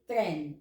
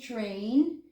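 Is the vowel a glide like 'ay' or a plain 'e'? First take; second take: plain e; ay glide. First: The vowel is a plain short e. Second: The vowel glides like English ay. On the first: The speaker calls it right. "we say tren" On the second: The speaker calls it wrong. "we don't say train"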